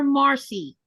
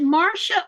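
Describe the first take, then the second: First: Marcy ending in a "see" sound; pronounced Marcy. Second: Marcia ending in a "shuh" sound; pronounced Marcia. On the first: Asking a viewer how her name is said, pronounced Marcy. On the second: Asking a viewer how her name is said, pronounced Marcia. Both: Shown as a demonstration. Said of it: "which way is your name pronounced".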